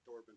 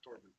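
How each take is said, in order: First: The name begins with a th sound. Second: The name begins with a plain t sound. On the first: The speaker calls it wrong. "No, you said Thorben" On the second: The speaker calls it right. "not T. The T H doesn't sound"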